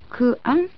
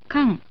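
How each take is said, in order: First: Ku and an are said as separate parts. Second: Ku and an merge into one syllable, kan. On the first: The speaker calls it wrong. "ではなく" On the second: The speaker calls it right. "となります"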